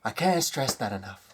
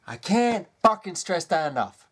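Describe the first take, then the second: First: Said in the usual way. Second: "can't" hit harder and higher, "fucking" added for weight; stressed insistence. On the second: Real, not acted. Ranting vlogger insists to viewers, punching "can't". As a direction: lean hard on "can't" to drive it home.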